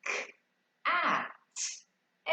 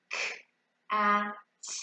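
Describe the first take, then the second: First: "K, A, T" as three separate sounds, the A high; sounding out words. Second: Touch and sound out "K", "A", "T" one at a time; sounding out words. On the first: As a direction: say "K", "A", "T" one by one, the A pitched up. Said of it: "And then you'll say". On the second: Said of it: "Touch and sound out the word". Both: Shown as a demonstration.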